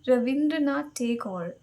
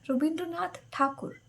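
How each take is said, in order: First: The surname is pronounced as Tagore. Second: The surname is pronounced as Thakur. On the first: This is the anglicized form of the name. The speaker calls it wrong. "I don't know why the English people uh, have completely changed the name" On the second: This is the original Bengali form of the name. The speaker calls it right. "It's Thakur, not Tagore"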